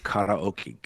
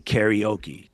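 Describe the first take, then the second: First: It is pronounced with Japanese-style pitch and sounds. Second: It is pronounced with English-style stress and sounds. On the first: The speaker calls it right. "because it's karaoke" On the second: The speaker calls it wrong. "you don't come there and say karaoke"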